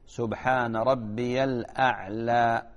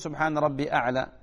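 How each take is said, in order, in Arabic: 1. يُسمع صوت 'l' قبل الكلمة الأخيرة. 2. لا يُسمع صوت 'l' قبل الكلمة الأخيرة. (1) "هذا هو" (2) "هذا غلط"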